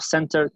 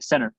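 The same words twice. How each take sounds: First: The T is pronounced strongly and clearly. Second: The T is dropped and barely heard. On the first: The speaker calls it wrong. "no center con, con, una T fuerte" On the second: The speaker calls it right. "sino que la T vuela"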